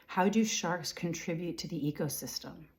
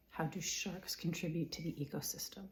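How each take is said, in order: First: Said in the usual way. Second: Whispered question, no voice. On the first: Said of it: "repeated as a whisper". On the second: Shown as a demonstration. Repeating the question to herself in a whisper. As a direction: breathe the question out silently. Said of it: "repeated question".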